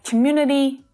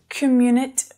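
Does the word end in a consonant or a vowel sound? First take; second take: vowel; consonant. First: The word ends with a soft vowel sound. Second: The word ends on a consonant, vowel dropped. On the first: The speaker calls it right. "we definitely want to hear that vowel sound on the end" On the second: The speaker calls it wrong. "Not communit"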